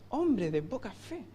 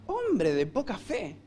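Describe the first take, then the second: First: Much softer, slow, sneering "Hombre de poca fe" with a rising end; mocking old churchgoer. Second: Slow, softer, scornful "Hombre de poca fe"; insulting tone. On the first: Un cristiano de años. (imitación burlona de un cristiano veterano, suave y lenta) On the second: Retold or imitated. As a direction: say it as a put-down. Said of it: "ahí está el insulto". (tono despectivo, lento y más suave)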